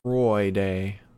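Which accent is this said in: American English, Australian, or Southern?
Australian. It is said in an Australian accent.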